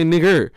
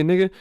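First: "nigger" ending on a hard r, tune falling. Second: "nigga" with a plain open vowel ending, no r. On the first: The other way some people say it, "nigger" with the r. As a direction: finish "nigger" with a clear r sound. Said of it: "Some people say nigger". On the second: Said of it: "the same way that we say nigga". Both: Shown as a demonstration.

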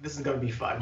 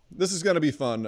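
First: Flat, soft, dreading tone; deadpan dread. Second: Strained upbeat announcement; forced cheer. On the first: Retold or imitated. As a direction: say it like you don't believe it. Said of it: "you're like". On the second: Real, not acted. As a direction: sound cheerful but stressed. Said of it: "you're like, "This is gonna be fun".

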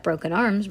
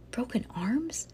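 First: Said in the usual way. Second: Slow, hushed, rising question; soft, breath-only query; appalled whisper. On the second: A narrator's reading. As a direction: whisper it in disbelief. Bean balks at the idea.

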